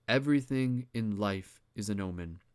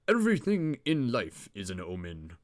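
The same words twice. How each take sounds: First: Said in the usual way. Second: Reader's put-on English accent. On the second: Shown as a demonstration. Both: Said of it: "get my Englishman accent".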